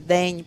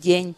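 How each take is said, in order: First: The first consonant is hard before the vowel. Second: The first consonant is soft before the vowel. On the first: This is the Ukrainian pronunciation. "В нас перед е приголосні не є м'які" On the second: This is the Russian pronunciation. "а в них"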